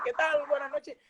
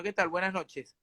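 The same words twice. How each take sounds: First: High-pitched stage hello; show host greeting. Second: Understated rattled hello; mild nervous greeting. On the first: Freddy opening the show to music, show host greeting. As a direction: greet the house in a high, put-on voice. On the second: Shaken Freddy facing the audience, mild nervous greeting. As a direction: get through the greeting softly, a touch nervous. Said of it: "quiero decirle que estoy muy nervioso". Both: Retold or imitated.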